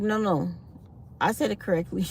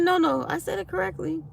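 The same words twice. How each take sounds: First: Said in the usual way. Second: Higher, mock-stubborn repeat of his claim; mock insistent man. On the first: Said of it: "I tried to see if I could correct him". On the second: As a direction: imitate the man insisting he said it right. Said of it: "He said".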